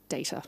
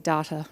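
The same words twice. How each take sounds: First: Data is pronounced a non-Australian way. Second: Data is pronounced the Australian way. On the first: "not data" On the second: "I'm Australian, so I say data"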